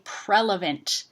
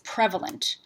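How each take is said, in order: First: An l sound follows the first syllable. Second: A v sound follows the first syllable. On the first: The speaker calls it wrong. "what people say by accident" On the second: The speaker calls it right. "what they're meaning to say"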